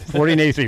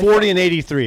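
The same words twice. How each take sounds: First: It is said very fast. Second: It is said at normal speed.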